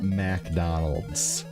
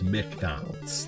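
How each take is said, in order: First: The first syllable sounds like 'mac'. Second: The first syllable sounds like 'mick'. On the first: The speaker calls it wrong. "It's not" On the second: The speaker calls it right. "There's no Mac. It's M C McDonald's"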